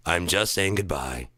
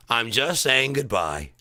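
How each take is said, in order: First: Said in the usual way. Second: Slow, drawn-out goodbye; slow goodbye demo. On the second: Shown as a demonstration. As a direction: spell out the goodbye gently. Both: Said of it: "this is how we all say goodbye now".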